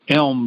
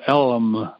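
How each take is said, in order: First: The word is said with one syllable. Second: The word is stretched into two syllables.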